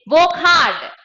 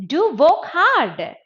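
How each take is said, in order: First: Loud, raised, brisk order; unsoftened command. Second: Slower urging, pitch raised; softened command. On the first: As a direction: command it with force. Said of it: "it becomes softened". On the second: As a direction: stretch it into a gentler urging. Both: Shown as a demonstration.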